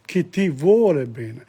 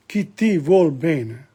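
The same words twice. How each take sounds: First: Said in the usual way. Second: Chi ti vuol bene with vuol clipped, no final e; chi ti vuol bene, vuol cut short; dropped final e. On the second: Shown as a demonstration. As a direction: drop the e of vuole, say vuol. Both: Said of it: "the dropping of the E there".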